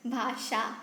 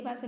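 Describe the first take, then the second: First: "भाषा" said alone with a clear sh, bhaa-shaa; corrected pronunciation. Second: "भाषा" with a plain s, as bhaasa; slipped pronunciation. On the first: Teacher correcting own slip, "भाषा" as careful bhaa-shaa. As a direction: say "भाषा" carefully, sh in the second syllable. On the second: Teacher slipping while asking about Hindi, "भाषा" as bhaasa. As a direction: say "भाषा" with s in place of sh. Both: Shown as a demonstration. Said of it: "बार बार भाषा हो जाता है".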